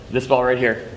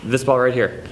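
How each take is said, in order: Both takes have the same delivery.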